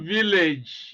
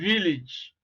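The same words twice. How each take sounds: First: The second vowel is not the vowel of pig. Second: The second vowel is the vowel of pig. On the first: The speaker calls it wrong. "It's not village, you know, as some people pronounce it" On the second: The speaker calls it right. "It's village"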